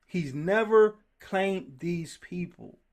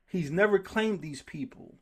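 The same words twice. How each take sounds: First: Never drawn out, each word slow and weighted; slow it right down to drive it home; slow emphasis. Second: Said in the usual way. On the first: Shown as a demonstration. Preacher repeating the point slowly for emphasis.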